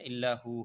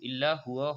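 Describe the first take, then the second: First: The final word is cut short to 'hu'. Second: The final word is said in full as 'huwa'. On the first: The speaker calls it right. "ইল্লা হু হবে" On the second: The speaker calls it wrong. "ইল্লা হুয়া হবে না অক্ফ করলে"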